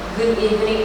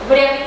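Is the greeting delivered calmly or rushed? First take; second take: calm; rushed. First: It is calm, with clear pauses between phrases. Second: It is rushed, with no pauses between phrases. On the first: The speaker calls it right. "use pause" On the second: The speaker calls it wrong. "can't even hear it clearly"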